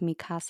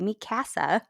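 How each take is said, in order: First: It is said the usual native way. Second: It is read out sound by sound as spelled. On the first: "instead of" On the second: "I'm very phonetic pronouncer"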